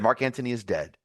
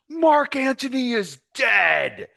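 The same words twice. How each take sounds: First: It is said plainly at normal loudness. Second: It is roared loudly with great force. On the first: The speaker calls it wrong. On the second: The speaker calls it right.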